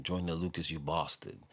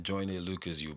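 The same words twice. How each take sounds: First: Imitated British accent on the insult; lightly mimicked British accent. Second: Said in the usual way. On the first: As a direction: put on a British accent, long "a" in bastard. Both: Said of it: "you have to say it in the accent".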